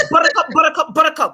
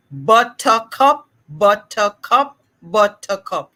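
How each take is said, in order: First: "buttercup" rapid-fire and higher; as fast as possible. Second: "buttercup" slowly, each syllable separate; measured syllable drill. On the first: Therapist corrects the host by demonstrating, rapid-fire. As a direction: run the syllables of "buttercup" together quickly. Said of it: "say it as fast as you can". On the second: Therapist models the drill for the host, measured syllables. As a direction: model "buttercup" in three distinct slow beats. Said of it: "Now we're gonna say it faster". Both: Shown as a demonstration.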